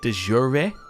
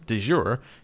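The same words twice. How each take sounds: First: It is pronounced in a Latin style. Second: It is pronounced in a French style. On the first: The speaker calls it right. "because it's Latin" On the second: The speaker calls it wrong. "that's the French way of saying it"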